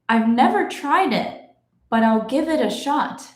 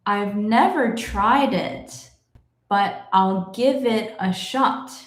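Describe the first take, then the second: First: The sentence is read at a moderate pace. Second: The sentence is read somewhat slowly. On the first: "let's go a little faster now" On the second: "but a little bit faster"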